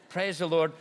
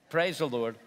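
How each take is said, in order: Both takes have the same delivery.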